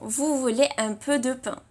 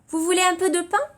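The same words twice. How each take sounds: First: The voice falls at the end like a statement. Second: The voice rises at the end like a question. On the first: It states that the listener wants bread. The speaker calls it right. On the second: It asks whether the listener wants bread. The speaker calls it wrong.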